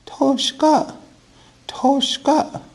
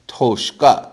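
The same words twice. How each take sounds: First: Very high falsetto woman's voice. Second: Said in the usual way. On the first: Shown as a demonstration. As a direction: say it like a woman, pitched way up. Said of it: "trying to say it like a woman".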